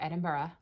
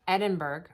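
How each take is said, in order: First: The ending sounds like 'burra'. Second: The ending sounds like 'burg'. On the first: The speaker calls it right. "if you want to be technical" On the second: The speaker calls it wrong. "I obviously am terrible at this"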